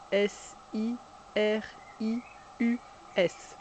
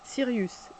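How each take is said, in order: First: S I R I U S, each letter named separately in pairs; spelled out for children, letter by letter; spelling letter by letter. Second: Said in the usual way. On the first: Shown as a demonstration. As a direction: spell the name out for the class. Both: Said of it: "C'est important de dire chaque lettre aussi".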